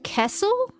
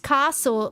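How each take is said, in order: First: Castle is said in an imitated Melbourne accent. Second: Castle is said in the speaker's own accent. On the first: The speaker calls it wrong. "Melburnians say like Kessel" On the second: The speaker calls it right. "it's castle"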